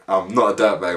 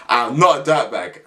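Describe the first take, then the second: First: Said in the usual way. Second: Laughing it off; laughing denial. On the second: Real, not acted. Joking to viewers, laughing while he denies it. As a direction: chuckle through "I'm not a dirtbag".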